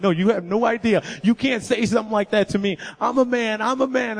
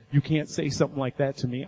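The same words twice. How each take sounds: First: Higher and louder, voice climbing as he breaks down; half-shouting through rising tears; retold tearful outburst. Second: Said in the usual way. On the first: A boy telling friends he is a man, shouting tearfully. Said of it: "I start crying and I'm bawling". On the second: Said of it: "it just makes you explode".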